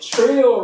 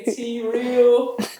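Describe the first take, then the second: First: The name is said as one syllable. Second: The name is said as two syllables. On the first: The speaker calls it right. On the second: The speaker calls it wrong.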